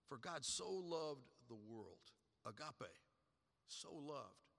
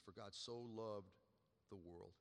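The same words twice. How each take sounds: First: Slowed right down, dwelling on loved; slow, savoured repeat. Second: Softer, lower, fading on world; hushed repeat. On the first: Preacher repeating the verse to the church, slow and hushed. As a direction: let each word land slowly. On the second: Preacher closing on the verse to the church, quietly fading. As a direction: let it drop to a hush. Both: Shown as a demonstration.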